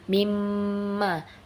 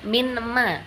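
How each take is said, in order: First: The consonant before ma is an m sound. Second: The consonant before ma is an n sound. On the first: The speaker calls it right. "mimma dileburkan nunnya" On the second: The speaker calls it wrong. "bukan minma"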